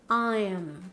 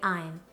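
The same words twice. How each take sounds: First: The final M is held with lips pressed together. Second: The final M is short and barely closed. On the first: The speaker calls it right. "don't forget to press your lips together. Mm" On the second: The speaker calls it wrong. "Don't say I'm"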